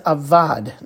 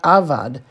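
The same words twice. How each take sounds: First: The stress is on the last syllable. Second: The stress is on the first syllable. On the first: The speaker calls it right. "that's the last syllable. So it's avad" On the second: The speaker calls it wrong. "not avad"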